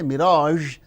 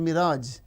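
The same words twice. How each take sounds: First: The final consonant is a zh sound. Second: The final consonant is a z sound. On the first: "we don't say" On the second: "we replace with z"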